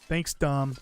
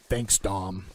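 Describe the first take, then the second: First: It is said in the speaker's normal voice. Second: It is said in an imitated character voice.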